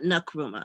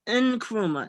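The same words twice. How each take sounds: First: The name starts with a weak N sound. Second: The name starts with a strong N sound. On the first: The speaker calls it wrong. "not Nkrumah" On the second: The speaker calls it right. "it's pronounced Nkrumah"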